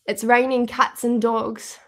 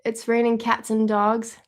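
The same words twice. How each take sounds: First: Slow, deliberate British accent; amateur British accent, drawn out; attempted British accent. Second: Said in the usual way. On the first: Shown as a demonstration. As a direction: try it carefully in a British accent. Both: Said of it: "Is that accurate?".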